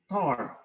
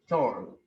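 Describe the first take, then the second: First: It is pronounced the English way. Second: It is pronounced the French way. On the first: "But in English it is called tort" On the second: "you have to pronounce it, pronounce it toll"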